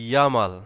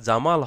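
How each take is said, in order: First: The name begins with a Y sound. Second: The name begins with a J sound. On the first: "তাহলে এটা হবে ইয়ামাল" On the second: "কারোর নাম যদি হচ্ছে জামাল হয়"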